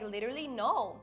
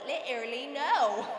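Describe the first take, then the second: First: It is said in the speaker's usual accent. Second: It is said in a put-on British accent.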